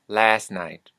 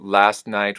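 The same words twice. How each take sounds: First: The final 't' of 'last' is dropped. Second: The final 't' of 'last' is pronounced.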